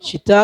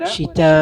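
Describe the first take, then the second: First: The vowel before the hamza is held briefly. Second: The vowel before the hamza is drawn out. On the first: The speaker calls it wrong. "ഷിതാ എന്ന് ഓതിയ പോരാ" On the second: The speaker calls it right. "നാലോ അഞ്ചോ ഹറക്കത്ത് നീട്ടണം"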